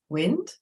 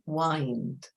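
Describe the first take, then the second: First: The vowel is short, as in 'it'. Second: The vowel is long, as in 'eye'. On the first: "which is straightforward" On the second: "the I has an I sound"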